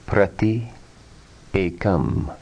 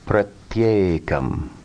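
First: The two words are kept apart. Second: The words are joined with a y sound.

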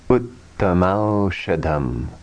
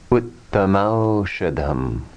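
First: The two words are merged into one. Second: The two words are merged into one.

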